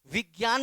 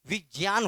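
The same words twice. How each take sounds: First: विज्ञान said "vig-gyaan", with a hard g; common VIGYAN pronunciation. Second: विज्ञान said "vij-jyaan", with a j; VIJNYAN pronunciation. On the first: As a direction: say the ज्ञा in विज्ञान as "gya". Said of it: "विज्ञान नहीं होता". (विज्ञान को "विग्यान" बोलना) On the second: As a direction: say the ज्ञा in विज्ञान as "jnya", no g. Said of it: "विज्ञान होता है". (विज्ञान को "विज्यान" बोलना) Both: Shown as a demonstration.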